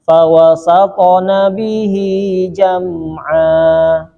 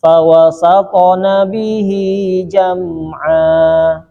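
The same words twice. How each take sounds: First: The consonant sound is held steadily and clearly. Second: The consonant sound is held steadily and clearly.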